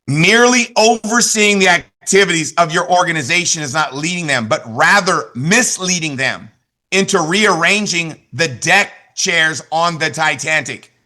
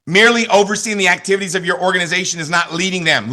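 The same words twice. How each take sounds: First: Slow, weighty reading, "misleading" and "Titanic" drawn out; slow dramatic quote. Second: Said in the usual way. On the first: Shown as a demonstration. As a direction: deliver it slowly, like a punchline you savour. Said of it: "Listen to this. You'll love this one". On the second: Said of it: "Listen to this".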